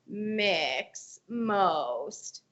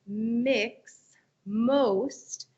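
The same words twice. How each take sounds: First: The voice is creaky and crackly, with glottal fry. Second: The voice is clear, with forward nasal resonance. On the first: The speaker calls it wrong. "it doesn't really sound all that great" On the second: The speaker calls it right. "transition back"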